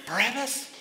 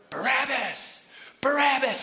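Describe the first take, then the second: First: High, rising disbelief; alarmed question. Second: Loud, high chanting shout; crowd yelling. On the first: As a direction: ask it as the startled prisoner. Prisoner questions what he hears. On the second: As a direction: yell it like an angry mob. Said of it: "They start yelling". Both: Acted.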